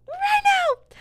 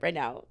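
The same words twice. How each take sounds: First: Very high, loud screech; over-the-top squealed demand; mock demanding shriek. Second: Said in the usual way. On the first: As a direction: burst into a shrill comic yell. Demand repeated as a sudden outburst.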